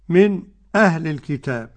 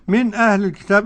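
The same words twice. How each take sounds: First: A brief silent pause comes before the hamza. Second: The hamza is pronounced fully without any pause. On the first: "والسكت بتاع خلف" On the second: "أدي التحقيق"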